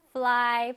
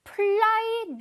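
First: "fly" with a true F, lower in pitch; teacher's careful "fly", opening with airy F friction; correct F sound. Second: "Fly" mispronounced with a hard P-like start, pitched high; exaggerated faulty "Fly", opening on a P instead of F; wrong F sound. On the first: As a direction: model "fly" starting on a clean F, lips not closed. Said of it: "발음해볼까요?". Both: Shown as a demonstration.

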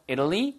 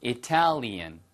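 First: "Italy" stressed up front, with flapped t; "Italy" as IDdly, left open with a rise; stress on first syllable. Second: "Italian" with the stress on TAL; "Italian" punched on its middle syllable; stress on second syllable. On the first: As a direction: hit the I of "Italy", tapping the t lightly. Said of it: "Italy의 발음이". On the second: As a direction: say i-TAL-ian, crisp t, falling. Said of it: "A에 붙으면 Italian". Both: Shown as a demonstration.

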